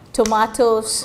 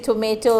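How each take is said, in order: First: It is said with a British accent. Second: It is said with an American accent.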